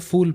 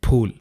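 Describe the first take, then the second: First: The first sound is an f, lips apart. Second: The first sound is an aspirated p, lips closed. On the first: The speaker calls it wrong. "तो आपने इसका उच्चारण गलत किया है" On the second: The speaker calls it right. "आपके होठ एक दूसरे से टकराने चाहिए"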